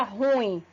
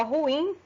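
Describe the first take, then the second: First: "ruim" as one merged syllable, RUim; incorrect pronunciation. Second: "ruim" in two syllables, ru-IM; hiatus pronunciation. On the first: Teacher showing what not to say, vowels merged. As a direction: slide U into I in "ruim", stressing U. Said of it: "não se pronuncia ruim". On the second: Teacher introducing the word to students, vowels kept apart. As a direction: keep U and I of "ruim" separate. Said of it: "a pronúncia correta de ruim". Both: Shown as a demonstration.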